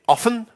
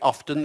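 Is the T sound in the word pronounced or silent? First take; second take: silent; pronounced. First: The word is said with a silent T. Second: The word is said with a clear T. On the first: "Some people say often" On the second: "there's a T there in the spelling"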